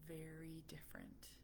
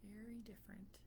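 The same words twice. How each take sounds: First: Whispered aside; unvoiced whispered remark. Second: Softer whispered echo; whispered repeat, trailing off. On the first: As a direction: breathe it out as a hushed aside. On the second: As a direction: repeat it barely breathing. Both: Real, not acted.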